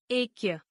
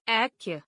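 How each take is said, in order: First: ऐक्य with closed "e" for "ai"; mispronounced. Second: Said in the usual way. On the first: Shown as a demonstration. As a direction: say ऐक्य as "ekya". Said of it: "अशुद्ध". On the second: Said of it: "शुद्ध".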